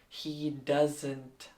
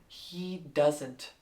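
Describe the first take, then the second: No difference in how they are said.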